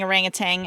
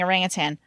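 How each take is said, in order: First: The word ends with a 'tang' sound. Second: The word ends with a 'tan' sound. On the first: The speaker calls it wrong. "there's no tang in there. So I stopped saying orangutan" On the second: The speaker calls it right. "and I started saying orangutan"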